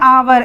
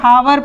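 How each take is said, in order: First: The word begins with a vowel sound. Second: The word begins with an h sound. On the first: The speaker calls it right. "हम इसे पढ़ेंगे आवर" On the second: The speaker calls it wrong. "इसका ये मतलब नहीं है कि हम इसे हावर पढ़ेंगे"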